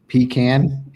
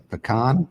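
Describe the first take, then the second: First: It is pronounced the Southern way. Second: It is pronounced the non-Southern way.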